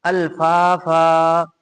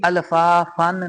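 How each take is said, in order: First: अल्फाफा chanted slowly, ending on a long आ; recited stopping form. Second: अल्फाफन with the -न ending sounded; wrong tanween form. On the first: Teacher recites the correct stop, slow chanted अल्फाफा with long final आ. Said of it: "दो जबर को अलिफ से बदल कर पढ़ेंगे". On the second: Teacher shows what not to read, अल्फाफन with final न. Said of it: "अल्फाफन नहीं पढ़ेंगे". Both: Shown as a demonstration.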